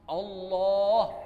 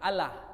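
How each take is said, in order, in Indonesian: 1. Setiap bunyi diucapkan penuh, dengan lam yang tebal. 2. Satu bunyi dalam kata itu dipendekkan, seperti logat Indonesia. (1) "bacalah dengan lengkap" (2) "sesuai dengan logat orang Indonesia"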